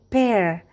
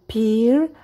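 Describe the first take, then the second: First: The vowel sounds like the one in bear. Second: The vowel sounds like the one in beer. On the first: The speaker calls it right. "tetapi pear, bear" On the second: The speaker calls it wrong. "Bukan pear atau beer"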